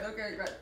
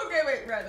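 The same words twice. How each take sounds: First: Said in the usual way. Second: Giggling through the words; laughing. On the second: Real, not acted. Laughing through sour candy.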